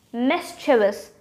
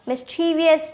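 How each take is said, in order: First: "Mischievous" as MIS-chuh-vus, slowly; correct three syllables. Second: "Mischievous" as mis-CHEE-vee-us; wrong four syllables. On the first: Teacher correcting the error, correct three syllables. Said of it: "with just three syllable". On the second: Teacher rejecting the error, wrong four syllables. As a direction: add an extra "ee" to "Mischievous". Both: Shown as a demonstration.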